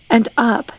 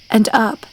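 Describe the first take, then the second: No difference in how they are said.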